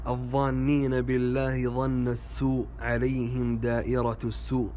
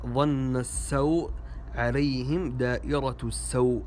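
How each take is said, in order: First: "السوء" as as-su', long u; damma on sin. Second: "السوء" as as-saw', diphthong aw; fatha on sin. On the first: Teacher shows a common mistake, "السوء" said as-su'. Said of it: "هذا خطأ". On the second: Teacher gives the correction, "السوء" said as-saw'. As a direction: say "السوء" with aw after the s. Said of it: "والصحيح". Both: Shown as a demonstration.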